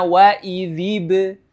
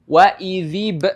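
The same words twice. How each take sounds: First: The b bounces lightly and flows on smoothly. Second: The b is cut off with an abrupt stop. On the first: The speaker calls it right. "dia langsung mengalir" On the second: The speaker calls it wrong. "bukan dengan berhenti di situ atau seolah-olah ada hamzah mati di situ"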